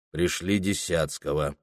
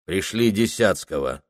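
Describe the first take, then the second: First: Gloomy, low and quieter. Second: Said in the usual way. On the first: Acted. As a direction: mutter the order sullenly. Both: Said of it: "хмуро повторил он".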